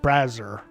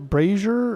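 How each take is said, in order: First: The first syllable sounds like 'bra'. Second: The first syllable sounds like 'bray'. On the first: "or is it like boobs?" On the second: "Is it like Frasier"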